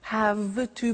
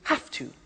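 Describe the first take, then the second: First: The word have ends with a V sound. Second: The word have ends with an F sound. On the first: "I don't say V" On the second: "I say F"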